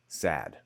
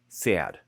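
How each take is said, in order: First: The vowel is a plain short a, like cat. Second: The vowel is tensed and gliding, like yeah. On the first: "not sad" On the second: "a classic New York accent has sad"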